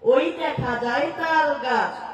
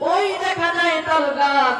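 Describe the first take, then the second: First: It is recited in a plain, ordinary voice. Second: It is recited in a put-on preacher's voice.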